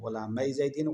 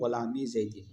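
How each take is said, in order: First: The first word ends with an 'ay' sound. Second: The first word ends with an 'ee' sound. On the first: The phrase refers to two servants. "अगर गुलामै पढ़े तो तस्निया की मिसाल बन जाएगी" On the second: The phrase refers to several servants. "गुलामी ज़ैदिन पढ़े तो जमा के लिए मिसाल बन जाएगी"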